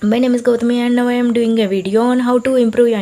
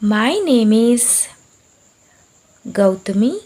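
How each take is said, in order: First: It is said very fast. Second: It is said very slowly.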